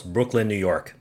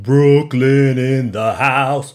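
First: Said in the usual way. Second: Loud, slow, put-on Brooklyn accent, drawn out; nonsense New York accent. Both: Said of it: "I don't know where that accent came from".

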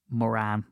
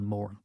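First: "Moran" as muh-RAN; second syllable stressed in "Moran"; usual mispronunciation. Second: "Moran" as MORE-un; first syllable stressed in "Moran"; correct pronunciation. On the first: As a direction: say "Moran" with the weight at the end. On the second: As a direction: say "Moran" with a swallowed ending. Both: Shown as a demonstration. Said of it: "really his name is".

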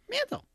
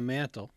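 First: Mantle! shot up very high and rising; high exclaimed. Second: Said in the usual way. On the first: Shown as a demonstration. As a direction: squeak the word Mantle! way up high.

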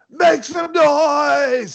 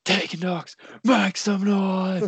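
First: High drawn-out hype shout; wrestler shout. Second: High, slow hype call; wrestler shout. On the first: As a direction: yell it to the crowd, high and slow. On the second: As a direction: call it out like a ring entrance. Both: Retold or imitated. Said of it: "she just screams out".

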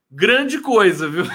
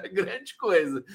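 First: Loud, higher scoffing "Grande coisa". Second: Said in the usual way. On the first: Real, not acted. Mocking a commenter's boast.

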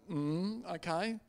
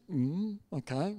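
First: Small, soft mm, okay; meek compliance. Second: Soft, slow acknowledgement; meek compliance. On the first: Pastor obeying an order to keep silent, meek and soft. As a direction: give in quietly. Meekly obeys the order to hush. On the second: Pastor just listening to the visitor, soft and compliant. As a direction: murmur a mild, obedient okay. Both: Retold or imitated.

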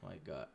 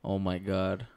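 First: Low, very soft voice; near whisper. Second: Full-voiced, no whisper; clearly projected. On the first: Real, not acted. Told to talk like a man, soft low mumble. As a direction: barely voice it, pitched low. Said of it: "Don't whisper". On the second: Shown as a demonstration. Second mic test for uncle, clearly projected. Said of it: "I hear you way better now".

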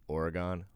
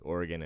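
First: Full "gone" at the end of Oregon; back-east Oregon pronunciation. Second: Short, reduced last syllable in Oregon; local Oregon pronunciation. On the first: Comparing east coast speech, Oregon said OR-uh-gone. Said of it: "we do back east". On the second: Comparing how locals say it, Oregon said OR-uh-gun. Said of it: "we had this discussion". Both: Shown as a demonstration.

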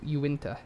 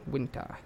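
First: Uinta said as yoo-IN-tuh; Uinta pronunciation. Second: Winta said as WIN-tah, no yoo sound at the start; Winta pronunciation. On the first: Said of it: "If it's not, it's U". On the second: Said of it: "pronounced Winta". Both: Shown as a demonstration.

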